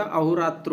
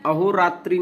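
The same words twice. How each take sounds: First: अहोरात्र without final इ; correct pronunciation. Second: अहोरात्रि ending in इ; wrong pronunciation. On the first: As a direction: finish अहोरात्र on त्र. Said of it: "अहोरात्र होता है". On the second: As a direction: finish अहोरात्रि on त्रि. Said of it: "अहोरात्रि नहीं होता". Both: Shown as a demonstration.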